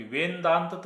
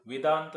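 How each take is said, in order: First: वेदांत drawn out as "ven-daant", with an added n; wrong split VEN-DAANT. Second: Said in the usual way. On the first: Shown as a demonstration. Teacher rejecting a wrong split of the word, वेदांत stretched as "ven-daant". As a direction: say वेदांत slowly as two pieces, "ven" and "daant". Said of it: "वेन कशाला येईल भाऊ". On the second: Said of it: "आता हा जसंच तसं".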